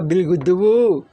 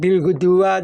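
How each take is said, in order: First: The last word ends with a 'u' vowel. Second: The last word ends with an 'a' vowel. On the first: "apalagi bil guduwu, nggak boleh" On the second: "tidak boleh bil guduwa"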